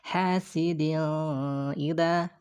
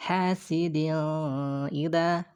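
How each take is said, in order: First: The n sound is obscured and blurred. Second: The same.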